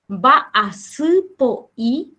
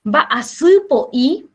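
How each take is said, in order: First: Va a su po i stretched out slowly; slow, clear second take of va a su po i; slowed repeat. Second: Said in the usual way. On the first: Shown as a demonstration.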